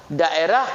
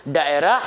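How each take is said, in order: Both takes have the same delivery.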